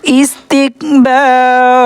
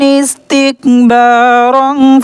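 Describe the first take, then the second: First: It stops, ending on a long vowel. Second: It ends in n, joined to the next word. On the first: The reciter pauses at this word. "मैं यहाँ पर आपको ठहर कर दिखा रहा हूँ, यहाँ पर वक्फ कर इसलिए अलिफ को पढ़ रहे हैं" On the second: The reciter continues without pausing. "अगर यहाँ पर आप सांस नहीं तोड़ेंगे... बल्कि नून को"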